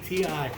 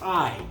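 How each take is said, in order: First: It is spelled out as two separate letters. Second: It is said as one word rhyming with 'my'. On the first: The speaker calls it right. "It's a T and an I" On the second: The speaker calls it wrong. "mispronounced it and called it a tie"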